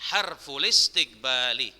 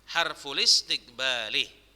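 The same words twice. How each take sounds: No difference in how they are said.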